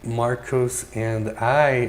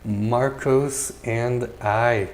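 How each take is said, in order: Both takes have the same delivery.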